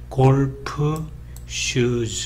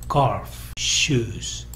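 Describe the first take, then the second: First: Extra vowels are added, making four syllables. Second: Each word is one syllable, two syllables total. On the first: The speaker calls it wrong. "네 개 봉우리가 되는 것이라서 사음절짜리 표현" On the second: The speaker calls it right. "하나의 봉우리처럼 이렇게 발음을 하라"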